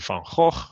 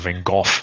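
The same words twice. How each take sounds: First: The name is said with Dutch pronunciation. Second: The name is said with non-Dutch pronunciation. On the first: The speaker calls it right. "It's actually Van Gogh" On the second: The speaker calls it wrong. "or Van Gogh or whatever it is"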